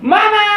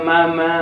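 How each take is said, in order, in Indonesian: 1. Kata "Mama" diteriakkan dengan volume penuh. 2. Kata "Mama" dipanggil dengan pelan. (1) "berteriak, menjerit" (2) "Anda mendengar anak Anda nangis"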